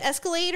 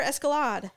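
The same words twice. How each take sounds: First: Escalade ending like "laid"; Escalade with -ade. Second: Escalade ending like "lod"; Escalade with -ahd. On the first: Host checking the car's name, Escalade as "ess-kuh-LAYD". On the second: Host checking the car's name, Escalade as "ess-kuh-LAHD". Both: Shown as a demonstration. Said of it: "She keeps saying Escalade. Is that correct".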